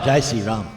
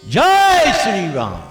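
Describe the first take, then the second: First: It is said weakly, without enthusiasm. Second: It is said strongly, with real enthusiasm.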